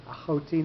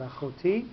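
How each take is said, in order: First: "achoti" with the stress on the middle syllable, CHO; accent pushed back. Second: "achoti" with the stress on the final TI; accent on last syllable. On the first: Teacher contrasting two accents, "achoti" stressed on CHO. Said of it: "why the nasog achor there is there". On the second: Teacher showing the rejected form, "achoti" stressed on TI. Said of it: "not achoti". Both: Shown as a demonstration.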